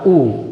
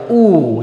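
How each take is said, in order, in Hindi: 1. स्वर जल्दी बोला गया है, यह ह्रस्व है। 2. स्वर खींचकर बोला गया है, यह दीर्घ है। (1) "बिना मात्रा वाला" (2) "मात्रा वाला लेंगे तो हो जाएगा ऊ, यानी इसमें समय लग रहा है"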